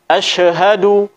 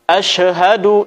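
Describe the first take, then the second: No difference in how they are said.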